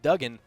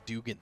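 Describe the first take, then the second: First: The first vowel sounds short, like 'dug'. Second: The first vowel sounds long, like 'do'. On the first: This is how the name is really said. The speaker calls it right. "it's actually pronounced Duggan" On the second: This is how most people say the name. The speaker calls it wrong. "Everybody says Dugan"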